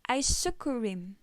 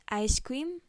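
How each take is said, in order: First: It is said with a Korean pronunciation. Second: It is said with an English pronunciation. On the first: "Korean pronounce it as isukurim" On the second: "usually pronounced as ice cream"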